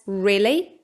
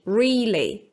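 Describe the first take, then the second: First: The first vowel is a short i sound. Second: The first vowel is a long ee sound. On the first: "with a short I, as in risk" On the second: "with a long E, as in read"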